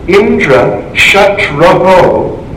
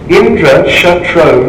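First: The last syllable is doubled at the end. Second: The last syllable is said once, without doubling. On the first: Someone whose enemy is Indra. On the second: Someone who will be the enemy of Indra.

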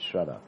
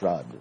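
First: The word ends in a vowel sound. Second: The word ends in a consonant sound. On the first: This is the original Sanskrit form. The speaker calls it right. "in Sanskrit it's shraddha. That's the correct pronunciation" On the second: This is the common local form. The speaker calls it wrong. "you call it shrad"

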